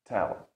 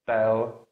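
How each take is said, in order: First: "tell" with a crisp released T; press, then release a puff on the T of "tell"; true T. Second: "tell" with a T lacking its puff of air; "tell" opened with a dull, unreleased-sounding T; wrong T. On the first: Teacher corrects the sound, true T. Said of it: "the true T". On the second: Teacher shows learners what not to say, wrong T. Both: Shown as a demonstration.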